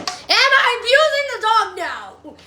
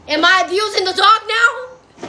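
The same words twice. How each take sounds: First: Abusing stressed, rising question. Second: Asked through a laugh; laughing question. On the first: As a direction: lean on abusing and let it rise. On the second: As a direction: chuckle as you ask it. Asks while laughing. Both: Real, not acted.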